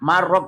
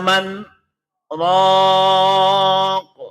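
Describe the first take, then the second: First: The two words run together without any stop. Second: A brief silent stop separates the two words. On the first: The speaker calls it wrong. "nek gak diwaca sakta" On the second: The speaker calls it right. "Saya contohkan lagi yang hubungannya dengan sakta"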